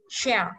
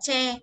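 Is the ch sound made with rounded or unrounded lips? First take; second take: rounded; unrounded. First: The ch sound is made with rounded lips. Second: The ch sound is made without lip rounding. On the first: The speaker calls it right. "phải đọc cong môi đọc là" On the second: The speaker calls it wrong. "mình không đọc là che"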